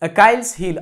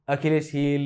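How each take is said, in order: First: The first word sounds like 'Akailes'. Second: The first word sounds like 'Akhilesh'. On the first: "मी त्याचा उच्चार करताना अकाइल्स हिल असा करतो" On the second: "कोणी त्याला अखिलेश वगैरे म्हणेल"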